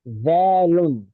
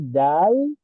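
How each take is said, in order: First: The word ends with an added 'un' sound. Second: The word ends without any added 'un' sound. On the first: "it's supposed to be dalun" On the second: "you remove that and you say dal"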